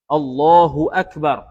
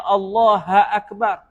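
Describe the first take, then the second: First: A short u vowel follows Allah before akbar. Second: Allah runs straight into akbar with no vowel. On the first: The speaker calls it right. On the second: The speaker calls it wrong.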